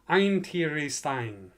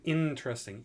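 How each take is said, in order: First: The vowels sound like the alphabet letter names. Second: The vowels have their usual short, everyday sounds. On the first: The speaker calls it wrong. "if you were to pronounce this phonetically, just sort of with the, the alphabet" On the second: The speaker calls it right. "You're using interesting"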